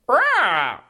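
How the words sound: It is said in an upbeat, friendly tone.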